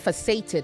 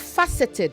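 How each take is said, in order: First: The stress falls on a later syllable. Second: The stress falls on the first syllable. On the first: The speaker calls it wrong. "not faceted" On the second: The speaker calls it right. "it is also faceted"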